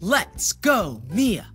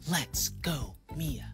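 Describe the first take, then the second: First: It is said a little louder. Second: It is said very quietly.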